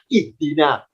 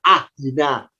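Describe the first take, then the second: First: The word begins with an i vowel. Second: The word begins with an a vowel. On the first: The speaker calls it right. "Kenapa kita terbiasa bacanya ihdina?" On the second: The speaker calls it wrong. "Kok tidak ahdina?"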